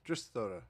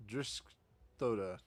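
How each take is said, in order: First: Said in the usual way. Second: Driskthoda sounded out slowly, syllable by syllable; careful name. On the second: Shown as a demonstration. Guild official carefully pronounces his own name Driskthoda.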